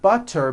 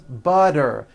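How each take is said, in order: First: The middle consonant is a clear T. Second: The middle consonant is a voiced D.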